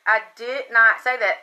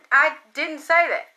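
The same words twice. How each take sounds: First: "not" hit hard and separate, falling; stress on not. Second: Higher, shocked disbelief on say; shocked denial. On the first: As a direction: punch the word "not" in firm denial. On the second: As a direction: blurt out "say" in disbelief. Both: Retold or imitated.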